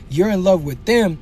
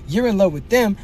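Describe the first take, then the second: No difference in how they are said.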